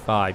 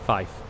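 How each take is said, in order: First: It ends with a v sound. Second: It ends with an f sound. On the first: The everyday way of saying it. "instead of saying five" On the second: The way used in radio phonetics. "you're supposed to say fife"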